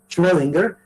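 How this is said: The name is said in an English style. The speaker calls it wrong. "pronunciado un poco al estilo anglosajón"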